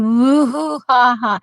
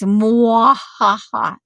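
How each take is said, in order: First: The first syllable is a plain 'moo' sound. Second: The first syllable is a gliding 'mwah' sound. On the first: The speaker calls it wrong. "that sounds like a cow mooing" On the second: The speaker calls it right. "It's not moo like a cow"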